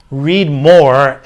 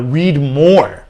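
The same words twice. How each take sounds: First: "Read more" louder, with a push on "more"; emphatic repeat. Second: Said in the usual way. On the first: Shown as a demonstration.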